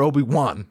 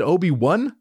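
First: "Obi-Wan" ending like the name Juan. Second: "Obi-Wan" ending like the number one. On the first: Comedian asks about pronunciation, "Obi-Wan" ending as "Juan". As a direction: say the end of "Obi-Wan" as "wahn". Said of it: "like my Mexican homies". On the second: Comedian asks about pronunciation, "Obi-Wan" ending as "one". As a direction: rhyme the end of "Obi-Wan" with "fun". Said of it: "like the number". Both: Shown as a demonstration.

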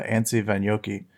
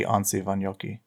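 First: Anssi Vanjoki with short A as in "cat"; flat-A pronunciation. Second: Anssi Vanjoki with broad "ah" vowels; open-A pronunciation. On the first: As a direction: say both A's in Anssi Vanjoki like "man". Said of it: "I was never good at pronouncing". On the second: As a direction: say both A's in Anssi Vanjoki like "father". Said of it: "it might be". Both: Shown as a demonstration.

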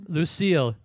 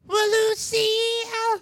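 First: Said in the usual way. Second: Very high, slow shriek of Well, [name]; [name] impression. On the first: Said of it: "That was my [name] impression". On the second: Shown as a demonstration. Host hams a terrible singer impression, very high and slow. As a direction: wail it out like a bad rock-and-roll singer. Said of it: "my [name] impression, which was terrible".

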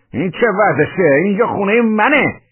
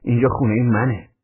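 First: High, loud indignant yell; outraged outburst, pitched way up; emboldened shout. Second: Said in the usual way. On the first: A narrator's reading. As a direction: shout your claim to the place. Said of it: "داد زدم".

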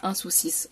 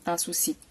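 First: "un soucis" with the final S sounded, a clear "s" at the end; wrong pronunciation. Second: "un souci" ending on the vowel, silent final letter; correct pronunciation. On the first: Teacher demonstrating to learners the wrong form, final S pronounced. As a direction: say "un soucis" voicing the final S that should stay silent. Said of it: "on ne dit pas". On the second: Teacher giving learners the correct form, softly, final letter silent. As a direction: say "un souci" with no S sound at the end. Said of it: "on dit". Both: Shown as a demonstration.

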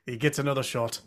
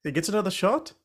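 First: SHOT dropping in a settled statement; confirming statement. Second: SHOT lifted high in a rising question; questioning echo. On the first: Answering yes in the Men in Tights bit, confirming. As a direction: let "shot" fall, confirming it. Film line repeated as confirmation. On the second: Re-enacting the Men in Tights line, questioning. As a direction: end on a surprised upswing on "shot?". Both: Retold or imitated.

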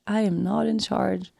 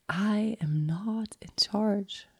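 First: Said in the usual way. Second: A slow, breathless whisper of the words; whispered realization. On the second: Retold or imitated. Realizing in ceremony she is not in charge, whispered. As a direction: let it slip out in awe, barely voiced. Inner realization repeated like mantra.

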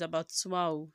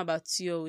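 First: Abattoir as a-ba-TWAH; correct pronunciation of abattoir. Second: Abattoir as a-ba-tee-OH; wrong pronunciation of abattoir. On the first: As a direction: say abattoir with a French "twa" ending. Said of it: "it's abattoir". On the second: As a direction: say abattoir as spelt, ending "tee-or". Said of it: "it's not abattoir". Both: Shown as a demonstration.

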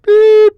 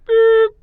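First: Loud high beep sound; shrill vocal censor beep; mouth bleep. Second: Lighter vocal censor beep; mouth bleep. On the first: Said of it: "That wasn't that good". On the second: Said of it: "That should do it". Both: Shown as a demonstration.

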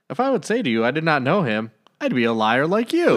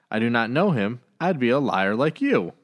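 First: Higher, punchy retort aimed right at them; sassy comeback. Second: Said in the usual way. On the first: Retold or imitated. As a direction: fire the line back like a cheeky put-down. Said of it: "Jesus just giving it right at him". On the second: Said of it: "I just like the line there".

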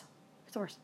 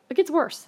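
First: It gets worse, dropped to a breathy whisper; whispered aside. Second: It gets worse, punched higher and louder; emphatic teaser. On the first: Confiding to the audience, a hushed whisper. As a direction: lean in and whisper it like a secret. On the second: To the audience, teasing the story's twist, loud and punchy. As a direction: build suspense with a loud tease. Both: Shown as a demonstration.

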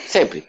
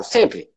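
First: "Sempre" dropped much lower and softer; low emphatic repeat. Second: Said in the usual way. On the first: Shown as a demonstration. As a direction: sink "Sempre" low and quiet for weight. ("Sempre" bem grave e baixo) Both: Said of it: "Eu sempre dou um exemplo".

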